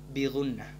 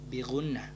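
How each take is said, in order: No difference in how they are said.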